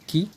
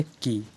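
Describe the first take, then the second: First: की with a short, light i. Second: की with a long, weighty ī; heavy long ī. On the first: Teacher contrasting the small i matra, की said lightly. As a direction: keep the vowel of की quick and easy. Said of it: "हल्का ले लीजिए". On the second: Teacher contrasting the big ī matra, की said heavily. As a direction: lean into the vowel of की and hold it. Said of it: "इसमें थोड़ा भारीपन आ जाता है". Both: Shown as a demonstration.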